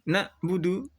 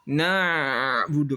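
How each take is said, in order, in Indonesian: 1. Bunyi ain dihentikan secara tiba-tiba. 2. Bunyi ain dipanjangkan terlalu lama. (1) "Tidak syiddah" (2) "tidak rokhawah na'budu kepanjangan"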